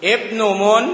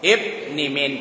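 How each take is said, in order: First: "อิบนุมุน" with u vowels, ibnu-mun; higher, deliberate "อิบนุมุน" opened on a clear i; fresh start. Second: "อิบนิมิน" with i vowels, ibni-min; carried from above. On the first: Teacher showing students a restarted reading, fresh start. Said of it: "ถ้าเอาขึ้นใหม่ก็อิบนุมุน". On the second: Teacher showing a reading pulled from above, i vowels. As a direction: say "อิบนิมิน" with i in place of each u. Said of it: "ถ้าเราก็ดึงลงมาจากข้างบน". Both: Shown as a demonstration.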